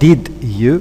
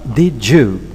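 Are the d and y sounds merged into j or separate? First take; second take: separate; merged. First: The d and y sounds stay separate. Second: The d and y merge into a j. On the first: The speaker calls it wrong. "It's not did you" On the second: The speaker calls it right. "ye is no longer there. It becomes j"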